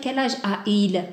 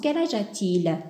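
First: The vowels meet directly with no t sound. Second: A t sound links the two vowels. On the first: The speaker calls it wrong. "On ne peut pas dire « quel âge a-il ?» ... C'est lourd" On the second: The speaker calls it right. "de préférence"

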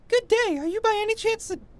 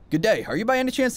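First: It is read in a put-on character voice. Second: It is read in the speaker's ordinary voice. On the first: The speaker calls it right. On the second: The speaker calls it wrong.

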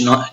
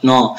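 First: The na sound is light and thin. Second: The na sound is heavy and thick. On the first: The speaker calls it right. "حرف مرقق" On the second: The speaker calls it wrong. "ما أقولش نا نا"

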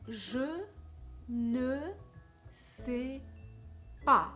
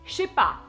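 First: The word ne is pronounced in full. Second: The word ne is dropped entirely. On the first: This is the careful classroom form. "Or they might teach you" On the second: This is how native speakers actually say it. "instead of saying je ne sais pas, they're saying je sais pas"

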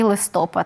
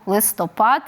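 First: The stress is on the second syllable. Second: The stress is on the last syllable. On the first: The speaker calls it wrong. "не варто, напевно, говорити і «листопад»" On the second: The speaker calls it right. "Варто віддавати перевагу слову «листопад»"

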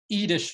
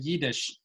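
First: The word begins with a vowel, no y sound. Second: The word begins with a y sound. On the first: This is the typical Litvak form. "Litvaks often will say" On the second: This is the more polished form. "rather than"

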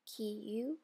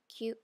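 First: It is said as two separate syllables. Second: It is said as one blended syllable. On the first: The speaker calls it wrong. "Kiyu becomes kyu" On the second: The speaker calls it right. "Kiyu becomes kyu"

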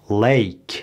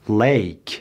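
No difference in how they are said.

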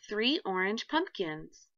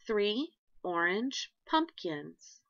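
First: It is read faster. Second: It is read slowly.

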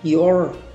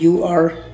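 First: It is said as one contracted syllable. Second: It is said as two separate words. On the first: "contractions मैंने पहले lecture के अंदर बताई थी" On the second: "अब ये यू आर"

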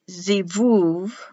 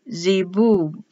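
First: The middle consonant is a V sound. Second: The middle consonant is a B sound. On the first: "So it's pronounced zivuv" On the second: "written zibub"

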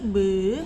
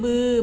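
First: The word is said on a rising tone. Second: The word is said on a high tone. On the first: "บออือบือไม้จัตวาบือ" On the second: "บออือบือไม้ตีบือ"

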